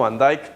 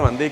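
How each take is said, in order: First: The name is said with Dutch sounds. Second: The name is said with Spanish sounds. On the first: This is how it is said in Dutch. The speaker calls it right. "en holandés correcto se pronunciaría algo así como" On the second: This is how people here say it. The speaker calls it wrong. "acá todo el mundo lo dice"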